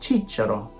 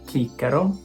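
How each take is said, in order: First: The word begins with a ch sound. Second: The word begins with a hard k sound. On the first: This is the church Latin pronunciation. "In ecclesiastical" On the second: This is the classical Latin pronunciation. "In classical"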